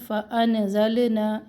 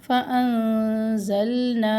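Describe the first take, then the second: First: फ़अनज़लना drawn out slowly, sounded wrongly; the incorrect reading of फ़अनज़लना. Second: फ़अनज़लना slow, with the नून hidden and the लाम held; careful tajweed of फ़अनज़लना; correct recitation. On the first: Teacher shows students how not to read it, slow. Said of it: "ऐसे नहीं पढ़ना". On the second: Teacher recites the correct reading slowly for students. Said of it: "नून को तो हम छुपाएंगे". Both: Shown as a demonstration.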